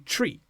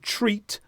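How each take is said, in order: First: The final T is dropped. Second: The final T is clearly pronounced. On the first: "we will drop the final consonant in the word" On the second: "instead of treat"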